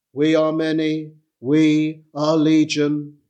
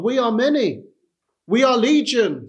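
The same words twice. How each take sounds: First: Said in the usual way. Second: A hint of a coaxing Satan, higher and pressing; lightly voiced devil urging you to stay; tempting Satan. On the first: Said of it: "the phrase repeated as a solemn echo". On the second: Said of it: "Satan will say to you".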